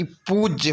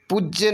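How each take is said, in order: First: पूज्य with a stretched poo; long oo. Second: पूज्य with a brief pu; short u. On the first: Teacher correcting the spelling, पूज्य with long oo. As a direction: hold the oo of पूज्य. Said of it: "होना चाहिए". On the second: Teacher showing the error, पूज्य with short u. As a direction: clip the vowel in पूज्य. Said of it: "नहीं बल्कि". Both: Shown as a demonstration.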